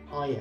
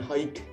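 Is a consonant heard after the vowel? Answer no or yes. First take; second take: no; yes. First: The word ends on the vowel. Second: A consonant is sounded after the vowel. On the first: The speaker calls it right. "hai aja" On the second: The speaker calls it wrong. "Bukan hike"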